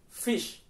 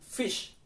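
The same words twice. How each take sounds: First: The vowel is said short. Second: The same.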